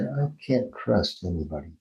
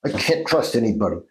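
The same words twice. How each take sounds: First: Soft, subdued sadness; sad. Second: Mild demonstrated anger; a touch of anger, said firmly; angry. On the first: Therapist demonstrating a phrase for a dreamer, softly sad. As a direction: say it sadly, softer and sinking. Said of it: "Say it sad". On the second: Therapist demonstrating a sound exercise on a dream phrase, mildly angry. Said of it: "Say it angry". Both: Shown as a demonstration.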